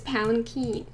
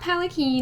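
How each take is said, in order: First: It is said with a soft N before the K. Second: It is said without an N before the K. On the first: The speaker calls it right. "there's an N in there" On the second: The speaker calls it wrong. "It's not palanquin"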